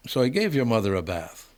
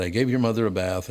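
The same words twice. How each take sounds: First: A lightly done, bad Jamaican accent on "So I gave your mother a bath"; terrible Jamaican accent. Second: Said in the usual way. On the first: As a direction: try a Jamaican accent and land it only half. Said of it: "that's a terrible Jamaican accent". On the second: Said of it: "But he said".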